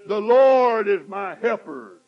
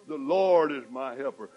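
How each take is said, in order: First: Loud slow proclamation; bold declaration. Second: Said in the usual way. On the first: Acted. Preacher to congregation, bold loud declaration. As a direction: boldly proclaim it. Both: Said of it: "repeated declaration".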